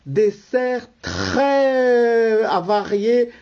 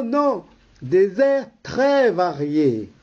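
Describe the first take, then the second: First: "très avariés" drawn out slowly, joined so it sounds like avariés; garbled wrong take. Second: "très variés" said cleanly as two words; corrected take. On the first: Announcer stumbling on the programme title, saying "très avariés". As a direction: slip of the tongue in "très avariés", slow. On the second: Announcer correcting himself to the audience with "très variés". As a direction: fix it: "très variés", plain and clear. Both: Shown as a demonstration. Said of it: "Non, euh, non".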